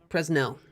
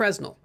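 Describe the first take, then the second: First: The stress is on the second syllable. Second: The stress is on the first syllable. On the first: The speaker calls it right. "the emphasis is apparently on the second syllable" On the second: The speaker calls it wrong. "I thought it was"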